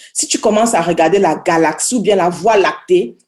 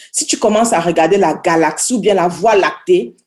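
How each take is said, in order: No difference in how they are said.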